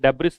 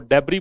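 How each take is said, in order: First: The word ends with an s sound. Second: The word ends without an s sound. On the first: The speaker calls it wrong. "डेब्रिस नहीं बोलते। एस इसका से का उच्चारण नहीं देता।" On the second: The speaker calls it right. "इसको डेब्री बोलते हैं"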